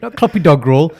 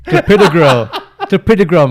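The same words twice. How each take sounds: First: Mocking "Clopidogrel" with DOG stressed; "Clopidogrel" as clop-i-DOG-rel, laughing; wrong pronunciation. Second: "Clopidogrel" loud, stress on "pi"; "Clopidogrel" shouted, kluh-PID-oh-grel; correct pronunciation. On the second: Shown as a demonstration.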